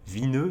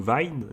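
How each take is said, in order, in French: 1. Le nom finit par une voyelle ajoutée. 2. Le nom finit sur la consonne, sans voyelle supplémentaire.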